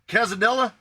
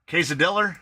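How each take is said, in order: First: The word ends in a plain vowel, no R. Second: The word ends with an added R sound.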